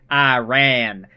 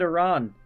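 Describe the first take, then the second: First: Iran is said with the usual American pronunciation. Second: Iran is said with a non-American pronunciation. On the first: The speaker calls it wrong. "Growing up in America, you just think Iraq, Iran. That's how it's said" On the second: The speaker calls it right. "You're supposed to pronounce it Iran"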